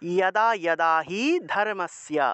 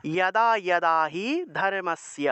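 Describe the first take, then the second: First: The first word begins with a y sound. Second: The first word begins with a y sound.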